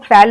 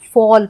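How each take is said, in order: First: The vowel sounds like the one in fan. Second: The vowel sounds like the one in law. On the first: The speaker calls it wrong. "फैल नहीं पढ़ेंगे" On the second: The speaker calls it right. "हम फॉल पढ़ते हैं"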